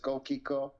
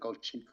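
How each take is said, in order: First: The middle consonant is a 'k' sound. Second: The middle consonant is a 'ch' sound. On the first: The speaker calls it right. "That's the right way" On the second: The speaker calls it wrong. "Not everybody says"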